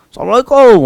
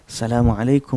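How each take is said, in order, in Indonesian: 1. Salam itu diucapkan dengan keras dan tiba-tiba. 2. Salam itu diucapkan dengan pelan dan lembut. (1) "orang tidur terkejut kita" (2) "Orang tidur pun tak terjaga, orang tak tidur pun boleh dengar"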